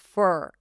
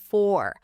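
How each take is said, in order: First: The vowel sounds like a quick 'er'. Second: The vowel is an open, dark 'or'. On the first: The speaker calls it wrong. "Do not lift the tongue too quickly here. Er. That's how it's going to sound" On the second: The speaker calls it right. "instead of"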